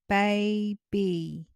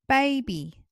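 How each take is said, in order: First: The word is said slowly, syllables apart. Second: The word is said at everyday speed.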